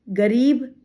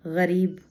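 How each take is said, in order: First: Said in the usual way. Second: गरीब with a throaty fricative gh at the start; Arabic-style gh opening गरीब; nukta pronunciation. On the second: Shown as a demonstration. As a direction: soften the first sound of गरीब into a back-of-throat gh. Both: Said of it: "ये उच्चारण का अर्थ".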